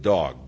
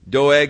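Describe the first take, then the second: First: The name is said like the word dog. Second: The name is said in its usual form, Doeg.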